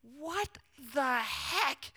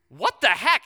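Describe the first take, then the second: First: Hushed, high, drawn-out words; stunned disbelief. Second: Louder, startled outburst retold; startled reaction. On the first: Retold or imitated. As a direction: let each word hang in acted shock. Stunned reaction to the amount. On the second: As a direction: act out a startled double take. Startled at finding hundred-dollar bill.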